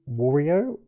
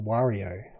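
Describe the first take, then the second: First: The first syllable sounds like the word 'war'. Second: The first syllable rhymes with the start of 'Mario'.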